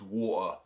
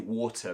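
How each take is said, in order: First: The middle t is dropped entirely. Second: The middle t is clearly pronounced.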